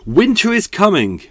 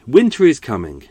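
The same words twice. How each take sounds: First: Winter is coming boomed out high and loud, like a herald; dramatic announcement. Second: Said in the usual way. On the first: Shown as a demonstration. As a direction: proclaim it like a grand fantasy warning. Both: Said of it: "I'm gonna announce it now".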